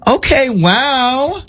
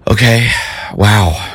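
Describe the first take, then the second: First: It sounds supportive and pleased. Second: It sounds disappointed and let down.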